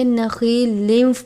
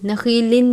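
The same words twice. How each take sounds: First: The word ends merging into a w sound. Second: The word ends with a clear n sound. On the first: The speaker calls it right. "पढ़ना है वाव की आवाज़ के साथ" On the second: The speaker calls it wrong. "नखीलिन नहीं पढ़ना"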